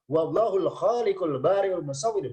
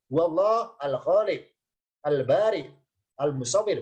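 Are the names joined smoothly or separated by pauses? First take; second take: joined; separated. First: The names run together without any pauses. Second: Each name is said separately with pauses between. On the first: "boleh wasol" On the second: "boleh per kata"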